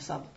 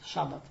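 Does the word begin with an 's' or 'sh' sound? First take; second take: s; sh. First: The word begins with a plain 's' sound. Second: The word begins with a 'sh' sound. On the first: The speaker calls it wrong. "nie sabat" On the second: The speaker calls it right. "szabat to jest wymowa poprawna"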